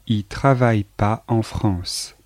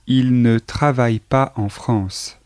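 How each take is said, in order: First: The word ne is left out entirely. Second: The word ne is pronounced before travaille. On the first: This is the casual spoken form. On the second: This is the standard form.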